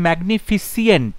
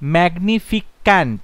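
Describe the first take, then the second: First: The ending has an extra 'ee' sound: -fisient. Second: The ending has a 'k' sound: -ficant. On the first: "না ফিসিয়েন্ট নয়" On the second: "ম্যাগনিফিক্যান্ট না"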